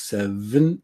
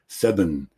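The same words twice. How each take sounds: First: The middle consonant is a V sound. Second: The middle consonant is a B sound. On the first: The speaker calls it right. "We have V in there" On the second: The speaker calls it wrong. "we can accidentally say B"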